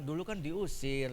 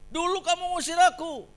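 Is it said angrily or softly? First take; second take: softly; angrily. First: It is said quietly and gently. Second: It is said in an angry, raging tone.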